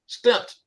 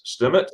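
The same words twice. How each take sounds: First: "Stimmt" as one syllable; corrected pronunciation. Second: "Stimmt" split into two syllables, stim-it; learner's mispronunciation. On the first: Learner finally gets the German word, "Stimmt" in one syllable. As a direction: close the m straight into the t in "Stimmt". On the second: Learner attempting a German word, "Stimmt" mispronounced as stim-it. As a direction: add an extra vowel before the final t in "Stimmt". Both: Real, not acted. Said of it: "I got it".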